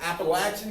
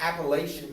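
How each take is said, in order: First: The third syllable sounds like 'latch'. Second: The third syllable does not sound like 'latch'. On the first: It is how people from the region say it. The speaker calls it right. "so it's the Appalachian Mountains" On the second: It marks someone not from the region. The speaker calls it wrong. "if you talk to someone who's not from around these parts, they may say Appalachian"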